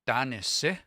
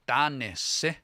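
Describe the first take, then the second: The two takes are said the same way.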